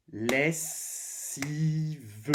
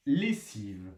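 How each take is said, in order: First: "Lessive" drawn out as les, si, ve; split into syllables. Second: Said in the usual way. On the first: Shown as a demonstration. Teacher tapping a word for pupils, "Lessive" in drawn-out syllables. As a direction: stretch "Lessive" into three beats, holding the s and sounding the final ve. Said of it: "on frappe le mot pour obtenir les syllabes". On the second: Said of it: "le mot pour obtenir les syllabes".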